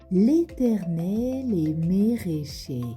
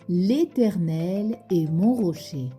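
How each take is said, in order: First: Every vowel is replaced by an é sound. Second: The sentence keeps its normal mixed vowels. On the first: "avec uniquement le son et" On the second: "Tu répètes après moi?"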